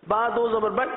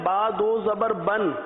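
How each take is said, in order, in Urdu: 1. آخری نون کی آواز چھوڑ دی جاتی ہے۔ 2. آخری نون کی آواز واضح طور پر ادا کی جاتی ہے۔ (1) "یعنی نون کی آواز کو ختم کر دیا جائے" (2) "تو درست ہے، تو صحیح ہے"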